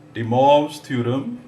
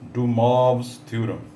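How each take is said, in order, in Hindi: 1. इस नाम का उच्चारण फ़्रेंच तरीके से होता है। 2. इस नाम का उच्चारण फ़्रेंच तरीके से होता है।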